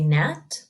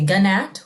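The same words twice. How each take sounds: First: The G at the start is silent. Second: The G at the start is sounded. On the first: The speaker calls it right. "we say gnat" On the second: The speaker calls it wrong. "we don't say gnat"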